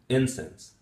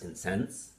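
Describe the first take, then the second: First: The stress is on the first syllable. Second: The stress is on the second syllable. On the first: It is used as a noun. "if it's a noun, it would be incense" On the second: It is used as a verb. "pronounced as incense, uh, is a verb"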